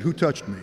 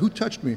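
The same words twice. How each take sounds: First: It is said in an accusing tone. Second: It is said in a gentle tone.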